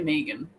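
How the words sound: The name is said in an Australian accent.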